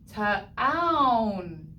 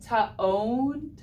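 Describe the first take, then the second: First: The vowel is pronounced as 'ow'. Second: The vowel is pronounced as a long 'o'. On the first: The speaker calls it right. "O W, ow" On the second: The speaker calls it wrong. "if you were to say this with long O"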